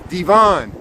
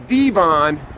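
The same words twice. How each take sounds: First: The stress is on the second syllable. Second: The stress is on the first syllable. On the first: "with the emphasis on the second" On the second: "I would say Devon"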